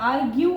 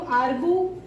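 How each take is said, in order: First: The word ends with a "yoo" sound. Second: The word ends with a plain "oo" sound. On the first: The speaker calls it right. "हम इसको आर्ग्यू पढ़ते हैं ना" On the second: The speaker calls it wrong. "आर्गू तो नहीं पढ़ते हैं ना"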